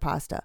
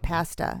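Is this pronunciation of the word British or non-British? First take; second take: non-British; British. First: The word is said the non-British way. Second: The word is said the British way. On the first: The speaker calls it right. "instead of pasta" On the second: The speaker calls it wrong. "Why do they say pasta"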